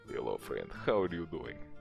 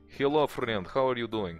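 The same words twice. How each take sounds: First: It is said in a tougher, rougher voice. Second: It is said in a plain Slavic-accented voice.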